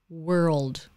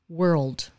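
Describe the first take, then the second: The two takes are said the same way.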